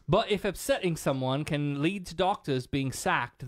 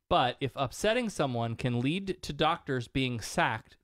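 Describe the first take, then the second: First: It is read in a put-on British accent. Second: It is read in the speaker's own non-British accent.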